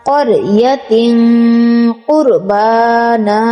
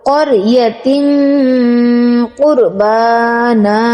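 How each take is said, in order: No difference in how they are said.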